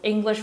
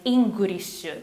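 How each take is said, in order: First: It is said in a plain American accent. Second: It is said in a Japanese katakana accent.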